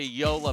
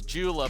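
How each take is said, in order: First: The name begins with a Y sound. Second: The name begins with a J sound. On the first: The speaker calls it right. "It's a Yola paddle" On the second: The speaker calls it wrong. "you're not saying it right"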